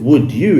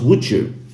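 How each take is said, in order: First: The d and y are said as separate sounds. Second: The d and y merge into a j sound. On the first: "instead of would you" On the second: "it becomes would you"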